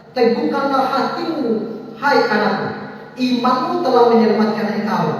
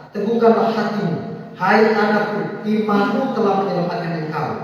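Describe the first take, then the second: No difference in how they are said.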